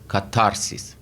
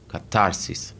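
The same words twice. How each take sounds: First: The stress is on the second syllable. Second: The stress is on the second syllable.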